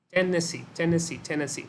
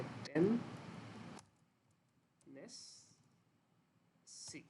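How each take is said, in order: First: Chanted, Tennessee said whole, three beats tapped in gallop rhythm; rhythmic chant. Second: ten- Ness- सी broken into three slow separate syllables, fading quieter; split into syllables. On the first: Teacher models the S4 gallop rhythm for students, rhythmic chant. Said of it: "इस rhythm को follow करना है". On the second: Teacher breaks the word into syllables for students, softly syllabified. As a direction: spell out ten- Ness- सी one piece at a time. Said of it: "spelling मैंने सही नहीं लिखे". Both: Shown as a demonstration.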